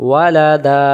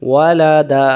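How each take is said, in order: The two takes are said the same way.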